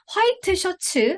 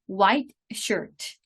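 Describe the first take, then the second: First: It is said with Korean-style syllables. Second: It is said with English-style syllables. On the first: The speaker calls it wrong. "화이트 셔츠 아니고요" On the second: The speaker calls it right.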